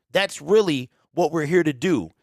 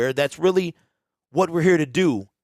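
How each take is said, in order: No difference in how they are said.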